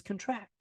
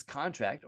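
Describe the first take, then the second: First: "contract" as cun-TRACT, said softly; stress on last syllable. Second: "contract" as CON-tract, said softly; stress on first syllable. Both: Shown as a demonstration. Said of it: "Which one is this?".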